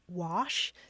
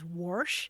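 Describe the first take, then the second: First: The word is said without an R sound. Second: The word is said with an R sound.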